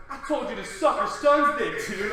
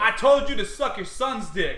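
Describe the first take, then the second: First: Mild New York tough guy; a hint of New York accent. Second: Light New York accent demo. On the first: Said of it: "tried to say it in a New York accent". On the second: Shown as a demonstration. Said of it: "is, like, how I said it".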